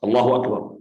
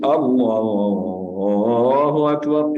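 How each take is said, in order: First: The phrase is said short and clipped. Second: The phrase is stretched out with a melody. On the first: The speaker calls it right. "It's Allahu Akbar" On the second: The speaker calls it wrong. "it's not being stretched or with a melody. ... It's not like this"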